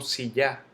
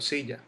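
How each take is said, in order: First: The stress is on the last syllable. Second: The stress is on the first syllable. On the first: The speaker calls it wrong. "Yo no digo silla" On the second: The speaker calls it right. "yo digo silla"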